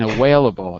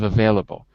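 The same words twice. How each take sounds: First: The middle consonant is a W sound. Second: The middle consonant is a V sound. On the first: The speaker calls it wrong. "Your V's sound like W's. and available" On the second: The speaker calls it right. "instead of available"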